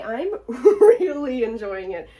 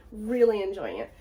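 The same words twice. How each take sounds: First: Loud, slow, laughing gush. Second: Said in the usual way. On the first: Real, not acted. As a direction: laugh through it, delighted.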